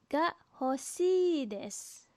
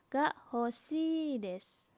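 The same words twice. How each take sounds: The two takes are said the same way.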